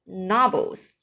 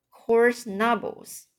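First: Said in the usual way. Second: Coarse stressed, said slowly; slow repeat of Coarse knobbles, leaning on Coarse. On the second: Shown as a demonstration. Reader slowly repeating a tricky phrase, leaning on Coarse.

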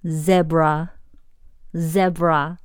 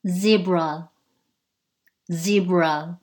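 First: Zebra said "ZEB-ra" with a short e; British pronunciation. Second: Zebra said "ZEE-bra" with a long e; American pronunciation. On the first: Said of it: "英式zebra". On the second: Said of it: "美式". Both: Shown as a demonstration.

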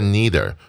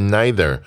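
First: "neither" said NEE-ther, first vowel like "see"; NEE-ther pronunciation. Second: "neither" said NY-ther, first vowel like "eye"; NY-ther pronunciation. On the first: Teacher showing students the other accepted reading, "neither" as NEE-ther. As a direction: say "neither" opening with "knee". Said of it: "或是念neither都可以". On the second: Teacher showing students one accepted reading, "neither" as NY-ther. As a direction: say "neither" opening with "nigh". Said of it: "你念neither或是念neither都可以". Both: Shown as a demonstration.

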